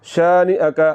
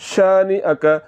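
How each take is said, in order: Both takes have the same delivery.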